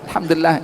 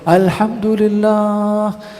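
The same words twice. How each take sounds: First: It is said in a half-hearted way. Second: It is said in a very happy way.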